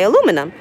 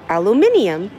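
First: It is said with the American pronunciation. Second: It is said with the British pronunciation. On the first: This is how it is said in the States. "how do you pronounce aluminum in the States? And I say aluminum" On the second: This is how it is said in Australia or the UK. "in Australia or the UK, they say aluminium"

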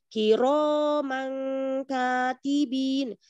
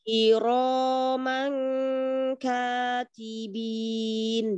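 First: The pitch is raised too high. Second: The pitch stays level without rising. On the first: The speaker calls it wrong. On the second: The speaker calls it right.

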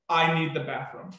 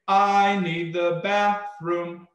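First: It is spoken in an ordinary flat speaking voice. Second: It is intoned with a melodic tune and rhythm. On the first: "if I just used just the speak the phrase" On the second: "if I just add melody uh, and rhythm to it"

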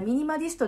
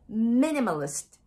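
First: All syllables are said with even, flat weight. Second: The stress falls on the first syllable. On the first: The speaker calls it wrong. "ミニマリストではなくて" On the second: The speaker calls it right. "実際の発音はミニマリストです。頭にアクセントです。"

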